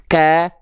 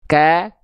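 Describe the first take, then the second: First: The k is released with a light breath. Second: The same.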